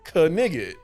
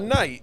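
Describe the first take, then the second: First: The word is said with a hard g sound. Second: The word is said with the gh silent.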